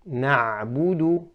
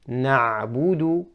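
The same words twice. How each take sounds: The two takes are said the same way.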